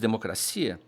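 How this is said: It has the Portuguese stress placement.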